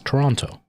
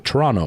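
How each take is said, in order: First: The second T sound is pronounced. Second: The second T sound is dropped. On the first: The speaker is not Canadian. "everybody else on the planet says Toronto" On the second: The speaker is Canadian. "we all say Toronto. We don't say the second T"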